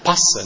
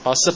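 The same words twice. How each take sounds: First: The first consonant has a strong puff of air. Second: The first consonant has no puff of air. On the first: The speaker calls it right. "I'm talking about the mahapranapayana" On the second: The speaker calls it wrong. "not passa"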